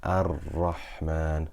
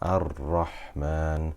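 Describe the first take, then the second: First: The r is trilled lightly with few taps. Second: The r is trilled lightly with few taps.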